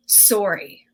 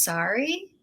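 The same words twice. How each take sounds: First: "Sorry" with an "or" sound, like story; Canadian "Sorry". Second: "sorry" with an open "ah" vowel, like sari; American "sorry". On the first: Shown as a demonstration. Songwriter offering a rhyme to Americans, Canadian "Sorry" with an "or" vowel. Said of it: "The word sorry rhymes with story". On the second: Retold or imitated. Americans correcting the songwriter's rhyme, American "sorry" with open vowel. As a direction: softly correct it to "sorry" as "sah-ree". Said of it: "It's pronounced".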